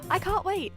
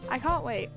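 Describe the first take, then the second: First: It is said in a lively, excited tone. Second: It is said in a flat, unexcited tone.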